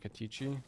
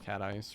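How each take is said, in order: First: The name ends with an 'ee' sound. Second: The name ends with an 'ice' sound. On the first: "It's like Katichi" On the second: "we're all saying it wrong. There's no way it's Cat Ice"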